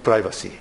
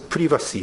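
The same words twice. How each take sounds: First: The word is said with an American pronunciation. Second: The word is said with a British pronunciation. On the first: "not privacy" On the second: "in the United Kingdom, they pronounce privacy"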